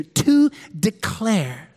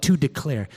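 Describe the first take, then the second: First: To declare drawn out very slowly, each word weighted; slow emphatic. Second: Said in the usual way. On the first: Shown as a demonstration. Pastor stressing the key scripture words for note-taking, very slow. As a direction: lean hard on To declare, slowly. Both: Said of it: "Circle that in your notes".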